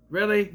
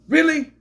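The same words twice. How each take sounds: First: Said in the usual way. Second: High, loud incredulous shout; exasperated really. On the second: Real, not acted. Reviewer fed up with the forced cameo, loud incredulous. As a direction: throw it out in disbelief.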